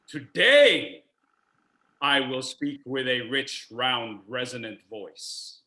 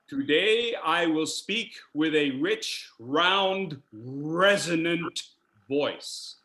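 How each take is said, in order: First: The word today carries the main stress. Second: The word resonant carries the main stress. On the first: "What if I keyed the first word?" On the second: "Take, for example, resonant. Yes, resonant"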